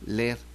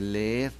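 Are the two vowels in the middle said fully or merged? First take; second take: merged; full. First: The two vowels merge into one short vowel. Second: Both vowels are pronounced fully and separately. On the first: "no se dice leer" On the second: "sino que se dice leer"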